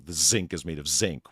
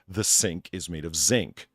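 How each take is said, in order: First: 'Sink' begins with a buzzing Z sound. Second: 'Sink' begins with a hissing S sound. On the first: The speaker calls it wrong. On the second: The speaker calls it right.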